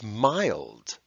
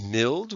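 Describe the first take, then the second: First: The vowel is long. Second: The vowel is short. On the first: "these vowels are long" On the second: "So instead of mild"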